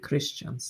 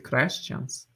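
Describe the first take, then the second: First: The vowel after 'Chr' is an I sound. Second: The vowel after 'Chr' is an E sound. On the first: Followers of the Messiah. "the second would be Christians" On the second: Followers of the good one. "the first reading would be Christians"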